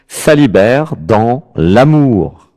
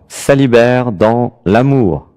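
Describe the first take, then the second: First: The phrase is said in an exaggerated, overdone way. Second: The phrase is said in a plain, ordinary way.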